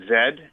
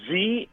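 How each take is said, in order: First: The letter is said the Canadian way, 'zed'. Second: The letter is said the American way, 'zee'.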